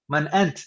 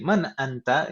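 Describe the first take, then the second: First: The final vowel of the last word is dropped. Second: The final vowel of the last word is pronounced. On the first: This is how it is said in everyday conversation. "itu biasanya kalau percakapan" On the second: This is the full reading form for learners. "usahakan harokat itu selalu dibaca lengkap sampai huruf terakhir"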